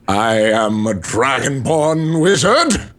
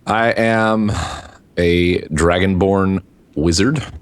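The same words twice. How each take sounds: First: It is said in a put-on character voice. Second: It is said flatly in a normal voice. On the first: The speaker calls it right. "I'm not talking like that the entire time" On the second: The speaker calls it wrong. "You sound excited about that"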